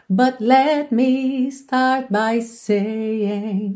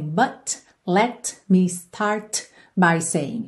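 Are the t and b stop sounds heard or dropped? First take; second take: dropped; heard. First: The t and b stop sounds are dropped. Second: The t and b stop sounds are clearly heard. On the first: "você não ouve nenhuma das três" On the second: "A gente não tem"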